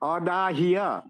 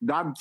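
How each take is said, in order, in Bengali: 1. শেষাংশটি অতিরিক্ত একটি 'i' syllable দিয়ে ভাগ করে বলা হয়। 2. শেষাংশটি একটি ঘন ব্যঞ্জন-গুচ্ছ হিসেবে বলা হয়। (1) "অদাহিয়া উচ্চারিত হবে" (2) "দাহ্য হবে না"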